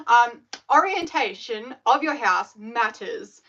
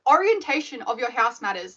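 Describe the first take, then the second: First: "orientation of your house matters" said slowly, each word weighted; slow emphatic statement. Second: Said in the usual way. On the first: Shown as a demonstration. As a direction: drag it out to make the point land.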